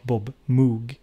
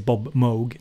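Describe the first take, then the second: First: Moog is said the Swedish company way. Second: Moog is said the way the person's name goes. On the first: It is how the company name is said in Sweden. The speaker calls it wrong. "not Bob Moog" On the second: It shows respect for the person. The speaker calls it right. "I try to say Bob Moog"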